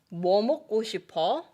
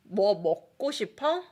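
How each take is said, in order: First: The stress is on 뭐. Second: The stress is on the verb 먹고 싶어.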